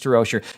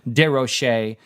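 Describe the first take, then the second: First: The name is pronounced the English way. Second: The name is pronounced the French way. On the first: "but we'll stick with these" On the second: "I like to pronounce it in the French way"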